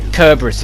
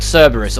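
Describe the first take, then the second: First: The name begins with a K sound. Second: The name begins with an S sound. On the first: The speaker calls it wrong. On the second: The speaker calls it right.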